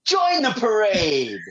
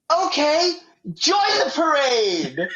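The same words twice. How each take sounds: First: Higher, slow, laughing announcer echo; hammed-up announcer line; catchphrase. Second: Higher, slow, puzzled announcer call; mock announcer shrugging her in; baffled announcer. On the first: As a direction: quote the inside joke, cracking up. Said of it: "we just say". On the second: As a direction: wave her in, not knowing what she is. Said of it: "the guy's like".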